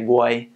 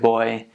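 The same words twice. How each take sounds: First: The word is said with a Jamaican pronunciation. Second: The word is said with a standard English pronunciation. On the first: "They always say boy" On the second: "instead of boy"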